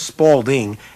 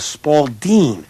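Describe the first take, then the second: First: The word is pronounced exactly as it is spelled. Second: The word is pronounced differently from its spelling. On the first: The speaker calls it wrong. "not a Spalding, S P A L D I N G" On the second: The speaker calls it right. "That's how you say it"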